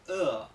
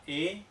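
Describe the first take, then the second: First: The vowel is a lower, central neutral vowel. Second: The vowel is a front Spanish-style e. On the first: The speaker calls it right. "sino que se pronuncia E" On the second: The speaker calls it wrong. "la E no se pronuncia E"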